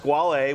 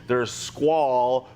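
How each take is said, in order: First: The name is said with Italian pronunciation. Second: The name is said with anglicized pronunciation. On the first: "which is the Italian pronunciation" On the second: "which was originally what was kind of gone by"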